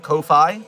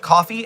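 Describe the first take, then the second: First: It ends with the sound of 'Phi'. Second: It sounds like the drink coffee. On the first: The speaker calls it right. "I like Phi at the end to be Phi. So I call it Ko-Fi" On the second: The speaker calls it wrong. "a lot of people just call it coffee"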